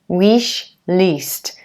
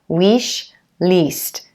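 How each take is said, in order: First: The vowel in list is a long tense ee. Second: The vowel in list is a long tense ee.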